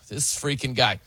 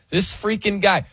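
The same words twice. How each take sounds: First: It sounds annoyed and disapproving. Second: It sounds amazed and impressed.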